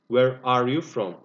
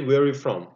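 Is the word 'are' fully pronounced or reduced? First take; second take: full; reduced. First: Said carefully with 'are' fully pronounced. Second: Said quickly with 'are' shortened. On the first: "But actually it is" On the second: "when we say fast, we say"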